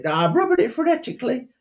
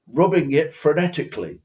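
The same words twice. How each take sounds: First: High, fast squeaky Cockney reply; mock Cockney urchin. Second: Slightly raised, precise mock-posh English; faux posh accent. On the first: Urchin assuring his master he is polishing, squeaky Cockney. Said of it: "I heard your Cockney accent". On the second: Posh master instructing the boy on polishing, faux posh. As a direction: enunciate like a hammed-up posh master. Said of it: "but faux posh".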